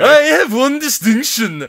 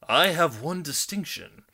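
First: It is said in a Swedish accent. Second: It is said in a plain, unaccented voice.

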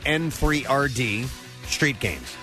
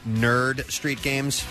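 First: The first word contains the spoken number three. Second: The first word is said as plain nerd. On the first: The speaker calls it wrong. "I've been saying N3rd" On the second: The speaker calls it right. "Apparently, that's Nerd Street Games"

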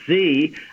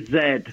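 First: The letter is said the American way, 'zee'. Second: The letter is said the British way, 'zed'.

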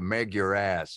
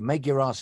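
First: It is said in an American accent. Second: It is said in the speaker's usual accent.

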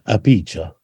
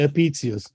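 First: The middle consonant is a ch sound. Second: The middle consonant is a ts sound. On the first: This is the Italian pronunciation. "Italians pronounce Latin as if it's Italian" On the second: This is the German pronunciation. "In Berlin, though, I say"

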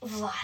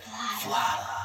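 First: It is said in a flat, plain tone. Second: It is said in an excited tone.

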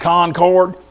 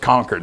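First: It is said with a Texas pronunciation. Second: It is said with the Massachusetts local pronunciation. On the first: This is how an outsider from Texas says the name. The speaker calls it wrong. "Y'all mean Concord?" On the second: This is how the locals say the name. The speaker calls it right. "it's Concord. That's what we call it"

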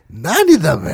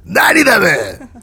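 First: It is said in a mocking, teasing tone. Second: It is said in a rough, harsh tone.

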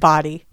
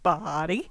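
First: The word is said short and plain. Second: The word is stretched out over many syllables. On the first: "now you just said body" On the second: "You made it like four syllables"

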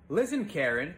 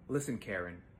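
First: It is said louder. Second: It is said more quietly.

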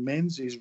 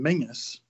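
First: The middle of the name has an nz sound. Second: The middle of the name has an ng sound. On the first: The speaker calls it wrong. "we had to pronounce John Menzies rather than Mingus" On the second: The speaker calls it right. "which is the right way of pronouncing it"

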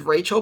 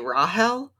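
First: The name is said the common English way. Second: The name is said the biblical way. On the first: This is how the name is written and usually said. "the name is Rachel" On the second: This is how the show says the name. "but they say Rahel? Which is the biblical pronunciation"

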